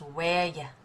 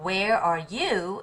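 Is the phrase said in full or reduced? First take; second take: reduced; full. First: The phrase is shortened to two quick syllables. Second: Each word is said fully and clearly. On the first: "it becomes" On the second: "instead of"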